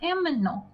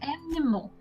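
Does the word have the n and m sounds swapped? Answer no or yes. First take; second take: yes; no. First: The m comes before the n. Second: The n comes before the m. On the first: The speaker calls it wrong. "not aminal" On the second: The speaker calls it right. "An animal"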